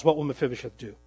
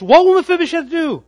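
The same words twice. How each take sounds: First: "What will Mephibosheth do?" asked low and hushed after a held pause; hushed suspenseful question; dramatic question. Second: "What will Mephibosheth do?" thrown out high and loud, hitting "will"; loud rhetorical challenge to the congregation; dramatic question. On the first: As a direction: lean in and ask "What" quietly, letting it hang. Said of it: "Dramatic pause". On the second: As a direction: belt the question to the back row. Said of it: "Dramatic pause in the text". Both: Shown as a demonstration.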